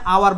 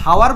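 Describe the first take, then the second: First: The word begins directly with a vowel sound. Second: The word begins with an audible h sound. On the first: The speaker calls it right. "এইচ এর উচ্চারণ না হলে এই এইচ হয়ে গেছে আ" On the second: The speaker calls it wrong. "এখানে এইচ এর উচ্চারণটা সাইলেন্স থাকে"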